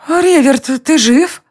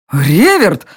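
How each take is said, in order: First: Higher, startled queen's voice; queen echoing her husband's cry. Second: A somewhat louder understated roar; mild roar. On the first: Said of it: "вторила мужу королева". (королева вторит мужу, выше) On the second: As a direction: call his name with a half-hearted roar. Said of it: "взревел Альт". (сдержанный рёв) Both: A narrator's reading.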